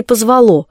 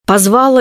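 First: Позвало stressed on the final syllable, -ЛО; stress on last syllable. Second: Позвала stressed on the middle syllable, -ВА-; stress on second syllable. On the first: Poet weighs the right form, позвало stressed on ЛО. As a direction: push the stress in позвало to the end. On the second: Poet weighs the right form, Позвала stressed on ВА. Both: Shown as a demonstration. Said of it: "как правильно?".

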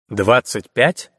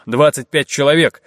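First: «Двадцать пять» slow, drawn out, rising at the end; недоверчивый переспрос. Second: Said in the usual way. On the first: A narrator's reading. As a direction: doubt the number «Двадцать пять» as a slow question. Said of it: "недоверчиво переспросил Арчи". («Двадцать пять?» медленно, недоверчиво, с подъёмом в конце)

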